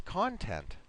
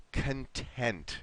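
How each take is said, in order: First: "content" stressed on the first syllable, CON-tent; imitating student's stress. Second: "content" with stress on TENT; weak "con", strong second syllable in "content"; syllable stress demo. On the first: Teacher repeats student's version back, "content" stressed CON-tent. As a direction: punch "CON" higher, then fall away in "content". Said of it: "the way you pronounced it, it was like this". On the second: Shown as a demonstration. Teacher names the happy, relaxed word, "content" stressed con-TENT. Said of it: "but that would be".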